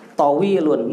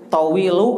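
First: The word ends with a final 'n' sound. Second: The word ends on a vowel without 'n'. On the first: The speaker calls it right. "Kalau enggak ada al, harus tanwin" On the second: The speaker calls it wrong. "Tawilu salah"

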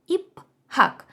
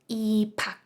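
First: A separate h sound follows the p. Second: The h merges into one aspirated p. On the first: "І останній приклад іпхак" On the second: "вимова в нас стає іпак"

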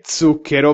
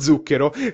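First: The z sounds like the z in zucchero. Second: The z sounds like the z in zanzara. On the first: The speaker calls it right. "si dice zucchero" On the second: The speaker calls it wrong. "vi siete sbagliati"

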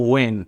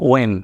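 Both takes have the same delivery.

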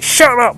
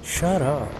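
First: It sounds loud and angry. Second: It sounds bored and unbothered.

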